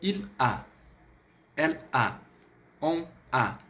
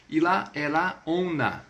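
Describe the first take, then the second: First: "Il a, elle a, on a" broken apart, gap before each "a"; choppy "Il a, elle a, on a", pronoun and verb detached; unlinked words. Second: "E lá, ela, on a" with each pronoun joined to its verb; "E lá, ela, on a" as three joined-up units; linked words. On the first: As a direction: say "Il a, elle a, on a" without liaison, each word separate. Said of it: "Você não pode falar assim". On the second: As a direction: glide "E lá, ela, on a" together as liaisons, no gap before the vowel. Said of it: "Você vai ligar, por que não?". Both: Shown as a demonstration.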